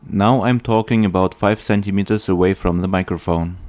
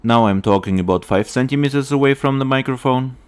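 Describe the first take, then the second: First: Popping p sounds. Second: Close mic with pop filter. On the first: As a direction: close to the mic, plosives popping. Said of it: "without a pop filter". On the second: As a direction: close up, pops softened by filter. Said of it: "with an additional pop filter". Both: Real, not acted.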